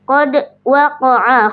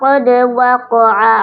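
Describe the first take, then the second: First: The d sound is cut off by a glottal catch. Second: The d sound bounces lightly without a catch. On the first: The speaker calls it wrong. "dal sukunnya tidak boleh terjeda oleh hamzah sukun" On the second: The speaker calls it right. "Yang sahih adalah"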